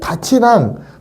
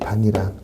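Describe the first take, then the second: First: The second syllable starts with a ch sound. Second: The second syllable starts with an n sound. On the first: The speaker calls it wrong. "이렇게 되면 안 된다고. 이렇게 구개음화 일어나는 게 아니라" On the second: The speaker calls it right. "그래서 얘는 반니랑이 돼야 돼요"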